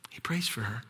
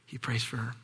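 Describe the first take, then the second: First: Softly breathed whisper; hushed whisper of prayer. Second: Said in the usual way. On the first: Shown as a demonstration. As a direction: whisper it, reverent.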